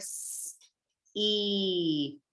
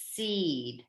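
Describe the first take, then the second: First: "seed" slowly drawn out, long E held; stretched out. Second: Said in the usual way. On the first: Shown as a demonstration. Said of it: "when we stretch out that word". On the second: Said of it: "I hear one syllable in the word".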